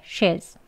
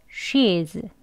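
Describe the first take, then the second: First: She's with a brief reduced vowel; short she's. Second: She's with a drawn-out ee; long she's. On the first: Teacher contrasts it with the long form, short she's. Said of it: "그리고 짧게". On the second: Teacher demonstrates the long form, drawn-out she's. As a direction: stretch the vowel of she's slowly. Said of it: "길게". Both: Shown as a demonstration.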